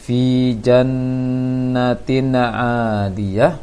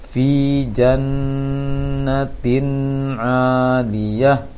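First: The phrase is recited quickly. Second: The phrase is recited a little slower. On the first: The speaker calls it wrong. "Yang sangat jelas juga tadi terbaca" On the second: The speaker calls it right. "Dilambatkan sedikit intonasinya"

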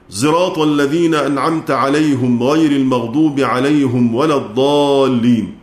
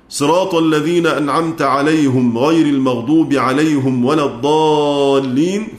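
First: Sirat begins with an s blended toward z. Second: Sirat begins with an emphatic s sound. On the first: "خلفا عن حمزة بالإشمام وضم الهاء" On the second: "نقرأ بضم الهاء لخلاد"

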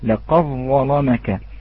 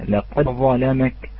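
First: The d merges fully into the following consonant. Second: The d is released with a clear echoing bounce. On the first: "هذا بإدغام الدال في الضاء" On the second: "لابد من الإتيان بالقلقلة"

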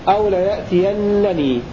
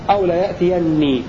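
First: The verb ends with an extra n syllable, -ninni. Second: The verb ends with a single doubled n, -nni. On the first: "بنون التوكيد المشددة وبعدها نون الوقاية" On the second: "بحذف نون الوقاية"

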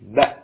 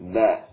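First: The final consonant is stopped abruptly and firmly. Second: The final consonant lets sound keep flowing. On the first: The speaker calls it right. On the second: The speaker calls it wrong.

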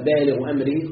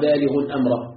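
First: Baaligh has no nunation; amr takes final -i. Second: Baaligh carries nunation; amr takes final -a. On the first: Baaligh and amr form a possessive construct. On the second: Allah fulfils His purpose, with amr as the object of baaligh.

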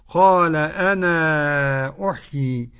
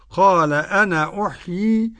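First: The final vowel of 'ana' is moderately lengthened. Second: The final vowel of 'ana' is held briefly. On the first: "والتواصل" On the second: "له القصر"

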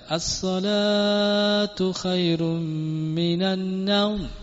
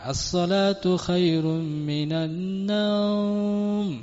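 First: The vowel in the first word is drawn out. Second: The vowel in the last word is drawn out. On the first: The prayer is said long and sleep is short. The speaker calls it right. "Salatnya panjang" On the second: The prayer is said quickly so people can sleep longer. The speaker calls it wrong. "naumnya dibaca panjang"

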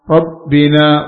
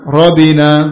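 First: The b sound is held long and doubled. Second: The b sound is short and single. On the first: The speaker calls it right. "Rabbina bukan rabbina" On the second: The speaker calls it wrong. "bukan rabbina"

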